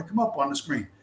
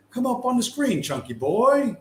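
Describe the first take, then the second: First: Said in the usual way. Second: High, sing-song call to the screen; playful sing-song coaxing. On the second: Pretend. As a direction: coax it up like calling a pet. Coaxing the video to load.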